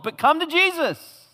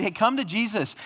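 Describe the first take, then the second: First: Much higher, louder, urgent plea; earnest preaching climax. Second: Breezy, higher sales-pitch invitation; mock salesman preacher. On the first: Real, not acted. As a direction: drive the call home at full force. True gospel call after suffering list. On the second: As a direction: parody a feel-good preacher selling Jesus. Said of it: "Don't you hear people talk like that?".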